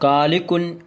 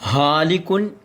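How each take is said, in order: First: It begins with a plain hard k sound. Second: It begins with a soft breathy h sound. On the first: "എന്ന് പറയാൻ പറ്റില്ല" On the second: "എന്ന് പറഞ്ഞാലും തെറ്റിപ്പോകും"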